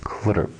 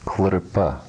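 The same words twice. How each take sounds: First: "klrp", closed on the p with no vowel after; no final vowel. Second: "klrpa", the vowel sounded at the end; with final a. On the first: Teacher shows the reading with the diagonal stroke, clipped with no final vowel. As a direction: say "klrp", ending cleanly on p. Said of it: "With the diagonal stroke, it's pronounced". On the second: Teacher shows the reading without the diagonal stroke, with a short final a. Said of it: "If there were no diagonal stroke there". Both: Shown as a demonstration.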